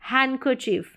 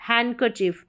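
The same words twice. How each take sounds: First: The d sound is silent in the word. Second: The same.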